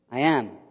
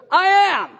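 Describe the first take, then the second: First: Said in the usual way. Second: Booming, high-pitched shout; scary, full-force proclamation; Jesus. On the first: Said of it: "He goes". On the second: Acted. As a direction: thunder it out as a fearsome declaration. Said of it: "scary moment where Jesus goes".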